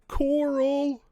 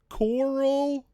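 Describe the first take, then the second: First: The name is drawn out in a Southern accent. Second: The name is drawn out in a Southern accent.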